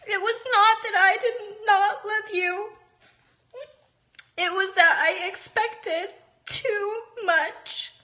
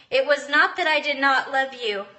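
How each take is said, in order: First: Real tears, voice breaking and higher; reading to her son while truly crying. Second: Said in the usual way. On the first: Real, not acted. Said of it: "I can't believe I'm crying". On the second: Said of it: "I don't think I'm getting, like, emotional".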